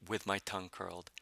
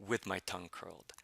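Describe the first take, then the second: The two takes are said the same way.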